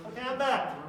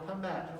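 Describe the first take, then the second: First: Louder, brighter return call; loud announcement. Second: Said in the usual way. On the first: Real, not acted. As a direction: announce your return to the room. Back up after tying shoe.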